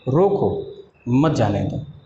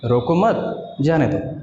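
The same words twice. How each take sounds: First: There is a pause right after the first word. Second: There is a pause right after the second word. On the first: Stop him, do not let him go. "अगर हमने कमा यहाँ पे लिखा होता तो हम लिखते" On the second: Do not stop him, let him go. "अगर हम मत के बाद कमा देना होता तो हम बोलते"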